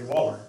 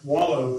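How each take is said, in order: First: The word ends with an 'er' sound. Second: The word ends with an 'oh' sound. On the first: It is the speaker's own natural way of saying it. "If I was going to say it correctly" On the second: It is said so listeners understand better. "I try to take that out and say wallow so y'all understand a little better"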